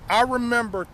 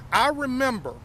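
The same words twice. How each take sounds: The two takes are said the same way.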